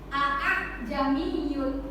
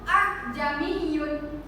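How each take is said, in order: First: Both glottal stops are pronounced clearly. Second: The second glottal stop is left out. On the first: "kedua A hamzahnya itu dibaca jelas" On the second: "hamzah keduanya nggak dibaca"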